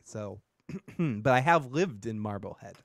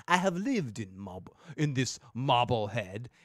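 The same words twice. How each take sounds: First: Said in the usual way. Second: Marblehead said with a thick Boston accent, r dropped. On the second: Shown as a demonstration. Local podcaster leans into his Boston accent, hammed up. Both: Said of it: "makes my Boston accent come out".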